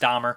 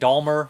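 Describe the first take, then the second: First: No L sound comes before the M. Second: An L sound comes before the M. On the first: The speaker calls it right. "I know it's Dahmer" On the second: The speaker calls it wrong. "with an L in there"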